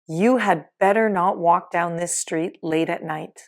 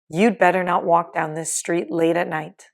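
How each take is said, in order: First: The word 'had' is said in full. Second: The word 'had' is shortened to a 'd' sound.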